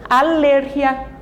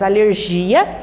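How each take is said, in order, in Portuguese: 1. A tônica fica na segunda sílaba. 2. A tônica fica na terceira sílaba. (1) "em espanhol, alergia. A sílaba forte, a sílaba tônica da palavra está na sílaba ler" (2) "Nós dizemos em português alergia, a sílaba forte, a sílaba tônica está aqui em G"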